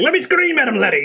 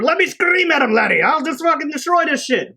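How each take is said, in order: First: High, loud hammed-up Irish brogue; cartoonish Irish accent, pitched up loud; mock Irish Banshee. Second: High, loud hammed-up Irish brogue; cartoonish Irish accent, much higher and louder; mock Irish Banshee. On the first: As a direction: repeat the rowdy Irishman's offer. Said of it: "He's like". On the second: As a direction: play a rowdy Irishman itching to scream. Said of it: "Banshee flies over".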